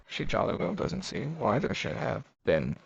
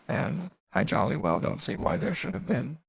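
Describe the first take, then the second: First: Mildly mocking echo of Lenina's words; lightly scoffing, for an unseen audience; mocking repetition. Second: A mildly defiant, truculent retort; understated defiance, not raised. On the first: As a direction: repeat it to an imaginary listener, a touch incredulous. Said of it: "Fanny repeated, as though to an invisible listener". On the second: Acted. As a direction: push back at Fanny a little stubbornly. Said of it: "she answered almost truculently".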